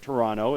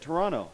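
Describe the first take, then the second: First: It is said with an American pronunciation. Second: It is said with a Canadian pronunciation.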